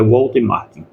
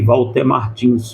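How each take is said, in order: First: The surname ends without an s sound. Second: The surname ends with an s sound. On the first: The speaker calls it right. "mas é Walter Martin" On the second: The speaker calls it wrong. "até eu chamava também esses dias de Walter Martins"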